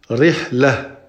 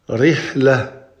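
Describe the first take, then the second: The two takes are said the same way.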